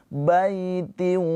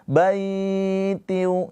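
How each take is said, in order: First: The first syllable's vowel is short and soft. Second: The first syllable's vowel is drawn out long. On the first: The speaker calls it right. "hanya dilembutkan aja" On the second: The speaker calls it wrong. "Jangan dibaca panjang. Jangan baitiu"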